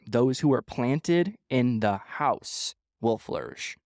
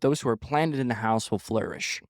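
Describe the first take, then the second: First: The sentence is read at a slow pace. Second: The sentence is read at a normal pace.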